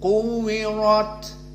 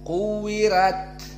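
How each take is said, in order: First: The r is pronounced thick and heavy. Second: The r is pronounced thin and light. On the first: "ra ra maka mufakhamah" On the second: "dibaca dalam keadaan tarqiq ra"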